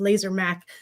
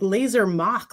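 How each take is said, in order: First: The second word sounds like 'mack'. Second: The second word sounds like 'mock'. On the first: The speaker calls it right. "like machined" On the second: The speaker calls it wrong. "like like the Mach Five from like Speed Racer"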